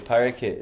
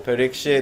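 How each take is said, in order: First: The name has only a 'k' sound in the middle. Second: The name has a 'ksh' sound in the middle. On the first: The speaker calls it right. "they say Parakit is better actually" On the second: The speaker calls it wrong. "Parikshit is not the, the proper Sanskrit"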